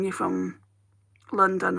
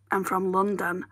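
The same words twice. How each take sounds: First: Said in the usual way. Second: I'm pushed hard, London played down; stress on I'm. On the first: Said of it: "People say to me all the time". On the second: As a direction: lean on I'm to correct them. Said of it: "and I'm like".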